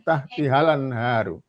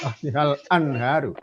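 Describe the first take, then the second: First: The article joins the previous word without a glottal start. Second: The article starts separately with its own vowel. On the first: The speaker calls it right. "kalau tidak ada hamzahnya bisa dibaca" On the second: The speaker calls it wrong.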